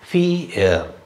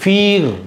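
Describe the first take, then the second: First: The vowel glides into an er sound. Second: The long vowel ends in a plain r. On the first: The speaker calls it right. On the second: The speaker calls it wrong. "அப்படி கிடையாது"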